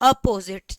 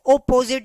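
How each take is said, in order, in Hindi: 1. पहला स्वर एक छोटा 'uh' ध्वनि है। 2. पहला स्वर एक गोल 'oh' ध्वनि है। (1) "अ साउंड करते हैं" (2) "हम ओपोजिट नहीं बोलते हैं"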